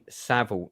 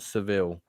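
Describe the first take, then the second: First: The first vowel sounds like the one in 'sat'. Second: The first vowel sounds like the one in 'set'. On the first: The speaker calls it right. "it's pronounced Jimmy Savile" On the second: The speaker calls it wrong. "not Seville"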